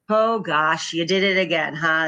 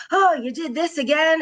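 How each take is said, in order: First: Easy, playful teasing, no blame; lighthearted. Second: Higher, weary exasperated sigh of a line; a stressed parent at the end of her rope. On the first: Mom teasing her son about the lost ball, lighthearted. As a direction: shrug it off with a light laugh in the voice. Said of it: "now I'll say things like". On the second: Busy stressed parent scolding her child, exasperated. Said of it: "parenting in autopilot". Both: Retold or imitated.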